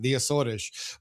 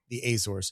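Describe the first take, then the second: First: The name is said the Portuguese way. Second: The name is said the American way.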